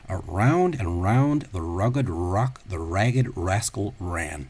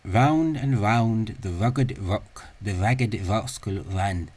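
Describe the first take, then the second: First: The R sounds are bunched approximants. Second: The R sounds are labiodental approximants. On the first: "What's often called a bunched or, uh, or a, a, a molar uh, or" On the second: "this sound is actually a labiodental uh, approximant"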